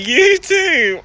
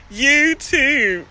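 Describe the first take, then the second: First: "you too" slowly, with long oo vowels; careful attempt. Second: "You too" with drawn Baltimore vowels; Baltimore accent. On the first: Streamer trying to say it right, slow drawn-out "you too". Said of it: "Let me try to say it right". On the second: Streamer teased by viewers, showing her Baltimore accent on "You too". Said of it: "Y'all love my Baltimore accent". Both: Shown as a demonstration.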